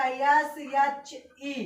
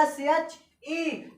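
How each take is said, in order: First: Slow spelling. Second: Very slow spelling. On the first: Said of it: "तो हमने लिखा". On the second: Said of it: "मैंने क्या लिखा है?". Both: Shown as a demonstration.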